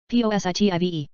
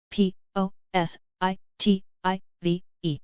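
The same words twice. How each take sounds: First: Quick letter run; brisk recap spelling; fast spelling. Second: Slow, letter by letter; unhurried classroom spelling. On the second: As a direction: spell each letter out slowly. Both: Shown as a demonstration. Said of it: "spelling drill, slow then fast".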